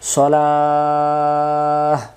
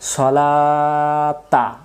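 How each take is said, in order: First: The word ends with a soft h sound. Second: The word ends with a full ta sound. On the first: The reciter stops for breath here. "দম ফেলার জায়গা যেহেতু আছে, এখানে আমরা বলবো সলাহ" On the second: The reciter continues without stopping. "তখন উচ্চারণ হবে সলাতা, কারণ তখন দম ফেলার জায়গা ছিল না"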